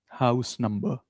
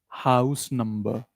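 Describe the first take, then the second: Both takes have the same delivery.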